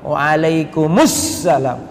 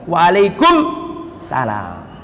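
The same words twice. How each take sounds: First: An 'us' sound comes right before 'salam'. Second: 'Salam' follows directly without an 'us' sound. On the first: The speaker calls it right. "yang lebih tepat apa? ... ada alif lamnya" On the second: The speaker calls it wrong. "Selama ini kita sering jawabnya apa?"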